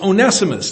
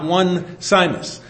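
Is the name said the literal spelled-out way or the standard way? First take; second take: standard; literal. First: The name is said with its standard pronunciation. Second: The name is said literally, as it is spelled. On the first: The speaker calls it right. "But it's Onesimus" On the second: The speaker calls it wrong. "not Onesimus"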